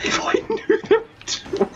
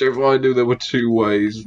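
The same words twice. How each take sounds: First: High, squeaky voice breaking up with laughter; too overcome with laughter to finish; laughing too much. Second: Said in the usual way. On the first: Real, not acted. Player trying to explain through giggles, laughing too much. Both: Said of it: "I'm laughing too much".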